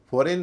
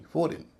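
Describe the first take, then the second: First: फॉरेन with a full "-rain" ending; wrong pronunciation. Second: फॉरेन as "FOR-in", reduced ending; correct pronunciation. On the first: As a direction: give the second vowel of फॉरेन full weight. (फॉरेन, आख़िर में पूरा "रेन") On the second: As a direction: stress the first syllable of फॉरेन, short "in". (फॉरेन, आख़िर में हल्का "रिन") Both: Shown as a demonstration. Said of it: "फॉरेन नहीं".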